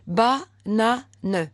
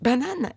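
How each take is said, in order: First: The word is split into separate syllables. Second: The word is said smoothly as one unit. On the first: The reader is still decoding each piece. "Je décode" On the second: The reader has put the pieces together. "Et en dernier coup, on dit banane"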